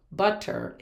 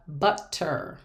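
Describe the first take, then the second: First: Said in the usual way. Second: "butter" broken between the double T's; split into syllables. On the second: Shown as a demonstration. Teacher showing where double consonants split, syllable by syllable. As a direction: say "butter" as two separate beats, but-ter. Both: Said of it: "we should break up the word".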